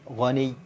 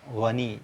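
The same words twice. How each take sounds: First: The word ends with pressure on the doubled sound. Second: The word ends plainly without added pressure. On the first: The speaker calls it right. "tapi ghani" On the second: The speaker calls it wrong. "jangan ghani biasa"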